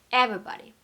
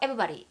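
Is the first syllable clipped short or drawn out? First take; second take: drawn out; clipped short. First: The stressed first syllable is lengthened noticeably. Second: It is said quickly with a short first syllable. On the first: The speaker calls it right. "강세 부분은 길이를 조금 길게 해준다" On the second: The speaker calls it wrong. "성격이 급하신 분들이 everybody ... 이런 느낌이 아니라"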